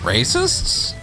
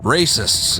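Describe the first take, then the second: First: The pitch rises at the end like a question. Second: The pitch falls at the end like a statement. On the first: It sounds like a question. "Sammy does it with a question mark" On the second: It is stated as a plain fact. "I would have said racists"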